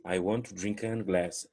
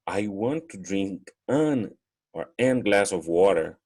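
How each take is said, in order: First: Slow and stumbling at "an glass"; clumsy wrong version; awkward wrong take. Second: Slow, stumbling over "an glass"; deliberately clumsy wrong article; awkward wrong take. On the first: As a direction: show how "an" trips the flow. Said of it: "esse Nzinho já judia tudo". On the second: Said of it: "já buga toda a minha pronúncia". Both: Shown as a demonstration.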